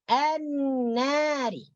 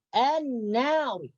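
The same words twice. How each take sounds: First: The r is pronounced thin and light. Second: The r is pronounced thick and heavy. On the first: The speaker calls it right. "ra yang berbaris kasra wajib dibaca nipis" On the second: The speaker calls it wrong. "Itu salah. Karena itu ditebalkan"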